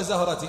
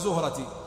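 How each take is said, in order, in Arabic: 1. أول حركة هي 'a' مفتوحة. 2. أول حركة هي 'u' مدورة. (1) "يجوز بالفتح" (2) "ويجوز بالضم"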